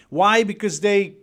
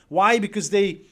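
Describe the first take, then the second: No difference in how they are said.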